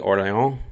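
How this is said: The name is said with a French accent.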